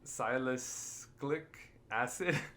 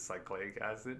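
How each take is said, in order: First: The first word is said with all four syllables. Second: The first word is shortened to two syllables. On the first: The speaker calls it right. "I'm trying to pronounce it" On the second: The speaker calls it wrong. "I thought it was cyclic acid"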